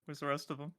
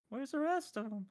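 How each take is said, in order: First: Said in the usual way. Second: High cartoon-voice question; very high-pitched put-on voice; SpongeBob. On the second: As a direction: squeak it out like a puzzled cartoon. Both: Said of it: "I'm gonna pull a SpongeBob".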